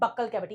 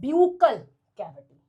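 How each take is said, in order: First: The first syllable sounds like 'buck'. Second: The first syllable sounds like 'byoo'. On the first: The speaker calls it wrong. "कुछ बच्चे कह देते हैं बक्कल cavity, it is not बक्कल cavity" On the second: The speaker calls it right. "हम इसको कैसे pronounce करेंगे? It is known as ब्यूकल cavity"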